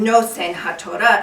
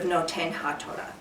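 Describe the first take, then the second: First: Ashkenazi pronunciation, with an s sound in Nosen. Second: Sephardic pronunciation, with a t sound in Noten. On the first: The speaker calls it right. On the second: The speaker calls it wrong.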